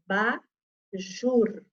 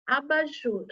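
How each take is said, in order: First: "Abajur" very slow, split a, ba, jur; syllable by syllable. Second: Said in the usual way. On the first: Shown as a demonstration. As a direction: break "Abajur" into syllables, sounding the last R. ("Abajur" bem devagar, sílaba por sílaba) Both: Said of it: "Quem é que tá no final da sílaba".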